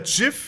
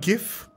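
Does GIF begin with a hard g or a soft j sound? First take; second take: soft j; hard g. First: The word starts with a soft j sound. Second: The word starts with a hard g sound. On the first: This is how it is officially meant to be said. "wie es eigentlich ausgesprochen werden sollte. Aber keiner sagt es so, weil es dumm klingt" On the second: This is how everyone actually says it. "Wenn man G drückt, macht man GIF"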